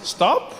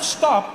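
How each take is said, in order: First: It is said as a casual suggestion. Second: It is said as a firm command.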